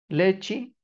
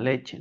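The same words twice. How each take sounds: First: The word ends with an 'i' sound. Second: The word ends with an 'e' sound.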